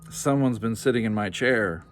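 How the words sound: It is said in a deep, grouchy growl.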